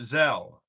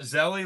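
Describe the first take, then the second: First: The name has one syllable, ending in 'l'. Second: The name has two syllables, ending in 'ee'. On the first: "or do you pronounce it Zell" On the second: "Zelly like Nelly"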